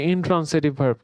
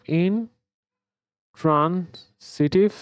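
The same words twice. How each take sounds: First: Said in the usual way. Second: ইনট্রান্সিটিভ said very slowly, syllable by syllable, rising at the end; slow, careful teacher model of ইনট্রান্সিটিভ; drawn-out model word. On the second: Shown as a demonstration. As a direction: stretch out ইনট্রান্সিটিভ slowly for students to copy. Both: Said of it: "ইনট্রান-, sorry".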